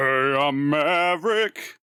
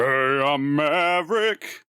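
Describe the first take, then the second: First: It is said in a put-on character voice. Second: It is said in a put-on character voice.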